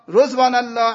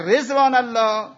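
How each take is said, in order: First: The first vowel is a u sound. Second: The first vowel is an i sound.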